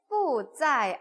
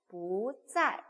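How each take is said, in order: First: 不 is said with a falling fourth tone. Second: 不 is said with a rising second tone. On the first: The speaker calls it wrong. "不 같은 경우는 사성이지만 ... 不在 안 하고" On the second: The speaker calls it right. "이성으로 바꿔서 不在 라고 읽죠"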